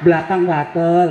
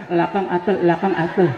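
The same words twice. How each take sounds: First: Said in the usual way. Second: Put-on Lakang atel lisped like a toddler for belakang gatel; pampered husband babbling lakang atel; spoiled baby talk. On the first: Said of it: "kata dia". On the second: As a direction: whine lakang atel, dropping the b and g. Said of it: "lakinya kan kolokan".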